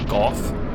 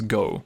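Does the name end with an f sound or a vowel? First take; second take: f sound; vowel. First: The name ends with an f sound. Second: The name ends with an open vowel. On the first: This is the name used in the official English translation. The speaker calls it wrong. "the official English name for that knight" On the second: This is the name in the original Japanese. The speaker calls it right. "the original Japanese uh, pronunciation is Go"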